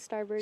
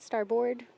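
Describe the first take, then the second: First: The second syllable is reduced to a weak vowel. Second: The second syllable is said fully, like 'board'. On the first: This is how rowers actually say it. The speaker calls it right. "but we pronounce it starboard" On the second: This is how the word is written. The speaker calls it wrong. "it's spelled starboard"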